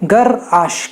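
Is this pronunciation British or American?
American. It is said in an American accent. "US में इसे गराश कहते हैं"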